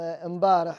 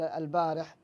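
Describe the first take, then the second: First: The word begins with the sound 'im'. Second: The word begins with the sound 'al'. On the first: This is the dialect form. "قولهم امبارح" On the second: This is the standard form. "بدل البارح"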